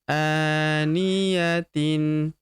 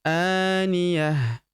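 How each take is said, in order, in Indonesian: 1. Kata ini berakhir dengan bunyi t dan vokal. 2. Kata ini berakhir dengan ha sukun. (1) "Ini ta marbuthah di ujung" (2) "Kalau berhenti di ujung ... berubah menjadi ha sukun"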